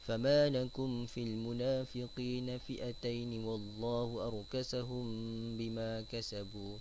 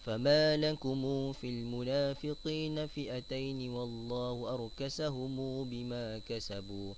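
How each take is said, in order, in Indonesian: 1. Huruf 'm' jamak berakhir tanpa diikuti vokal. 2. Huruf 'm' jamak diikuti vokal 'u' panjang. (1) "qalun dengan sukun mim jamak" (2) "silah mim jamak pada kalimah lakum dan juga arkasahum"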